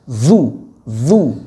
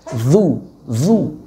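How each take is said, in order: No difference in how they are said.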